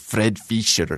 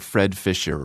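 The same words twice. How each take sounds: First: The name is said with a Swiss pronunciation. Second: The name is said with an English pronunciation.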